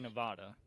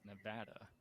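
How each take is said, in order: First: It is said with the outsider pronunciation. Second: It is said with the local pronunciation. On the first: The speaker calls it wrong. "I used to say Nevada for the longest time" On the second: The speaker calls it right. "that's the way that people in Nevada pronounce it"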